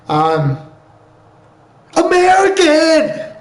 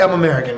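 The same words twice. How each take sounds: First: High, drawn-out patriotic yell; patriotic shout. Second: Said in the usual way. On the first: Acted. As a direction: belt it out with exaggerated national pride. Mock-patriotic outburst in denial.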